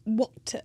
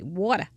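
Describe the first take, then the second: First: It is said in an old-movie transatlantic accent. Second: It is said in a Maine accent.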